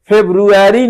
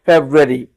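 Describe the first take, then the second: First: फेब्रुअरी with the full "ru", the error; wrong version. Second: फेब्रुअरी as "feb-ree", low; correct version. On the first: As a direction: show the mistaken फेब्रुअरी. (फेब्रुअरी का गलत उच्चारण) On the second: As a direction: model फेब्रुअरी with the r dropped. (फेब्रुअरी "फ़ेब्-री" धीमे बोलना) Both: Shown as a demonstration. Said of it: "फेब्रुअरी नहीं पढ़ना है".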